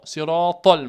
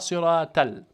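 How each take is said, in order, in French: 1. Le t est un son lourd, emphatique. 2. Le t est un son simple, léger. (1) "Mais là, c'est le to" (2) "On ne dit pas siratal, le ta normal"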